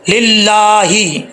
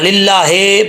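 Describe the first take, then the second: First: The word ends with a 'hi' sound. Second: The word ends with a 'he' sound. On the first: The speaker calls it right. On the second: The speaker calls it wrong.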